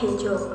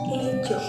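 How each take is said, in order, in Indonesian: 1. Kata ini diawali bunyi h yang terdengar. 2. Kata ini diawali tanpa bunyi h sama sekali. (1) "Dialek H merupakan penuturan bahasa Sunda yang masih merealisasikan huruf H" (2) "dialek non-H menghilangkan huruf H pada kosakata"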